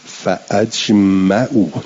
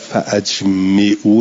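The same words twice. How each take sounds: First: The hamza is elided and the mim has a. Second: The hamza is pronounced and the mim has i. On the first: It is read as a plain form-one command. The speaker calls it right. "مفتوحه الميم، بعد موصوله الهمزه" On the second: It is read as a form-four command. The speaker calls it wrong. "نه همزه باب افعال و همزه قطع"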